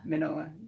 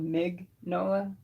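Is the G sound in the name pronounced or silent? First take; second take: silent; pronounced. First: The G sound is left out entirely. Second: The G sound is clearly pronounced. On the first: "I think the G's like kind of silent" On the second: "because it's spelled Mig Nola"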